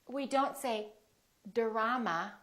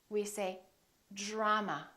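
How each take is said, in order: First: The dr is a plain, separate d and r. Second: The dr sounds soft, close to a j. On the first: The speaker calls it wrong. "We don't say" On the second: The speaker calls it right. "we say"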